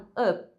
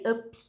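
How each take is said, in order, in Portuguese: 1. O P final é segurado sem soltar. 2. O P final é solto com um pequeno sopro. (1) "A gente vai tentar segurar esse P" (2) "às vezes pode acontecer de sair up, com um sonzinho de pi no final"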